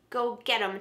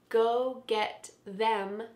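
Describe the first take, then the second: First: The word 'them' is reduced to 'em'. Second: The word 'them' is said in full.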